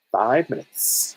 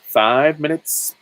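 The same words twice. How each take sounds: First: Slow drawn-out. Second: Five minutes stretched slow and loud; slow, louder drawn-out. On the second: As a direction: stretch it out and raise it. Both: Shown as a demonstration. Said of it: "drawn-out repeat".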